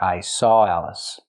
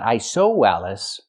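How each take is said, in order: First: 'Saw' flows into 'Alice' with no w. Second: A w sound links 'saw' to 'Alice'. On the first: The speaker calls it right. "but I saw Alice. Link the sounds" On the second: The speaker calls it wrong. "Not I saw Alice"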